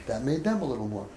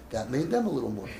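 No difference in how they are said.

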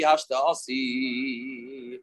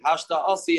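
First: Drawn out very slowly, softer and lower; longing sigh. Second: Said in the usual way. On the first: Retold or imitated. Wife waiting at the window, a slow longing murmur. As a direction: let the wife's yearning stretch each syllable. Wife anxiously awaiting husband.

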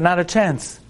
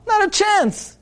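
First: Said in the usual way. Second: "Not a chance" flung up high in triumph; emphatic refusal. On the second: Acted. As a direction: crow it, no way you're getting it. Butcher refusing, worked up.

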